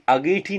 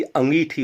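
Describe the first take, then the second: First: अंगीठी without the nasal, ageethi; wrong pronunciation. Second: अंगीठी with the nasal, angeethi; correct pronunciation. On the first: Teacher showing a common error, अंगीठी as ageethi. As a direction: drop the 'n' sound from the start of अंगीठी. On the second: Teacher correcting the error, अंगीठी as angeethi. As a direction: open अंगीठी on a nasal 'ang'. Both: Shown as a demonstration. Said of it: "अंगीठी होती है".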